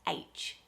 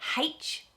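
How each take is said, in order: First: The letter name starts with a vowel, no h. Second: The letter name starts with an h sound. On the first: "there's no h sound, it's just H" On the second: "put a h in the front and say H"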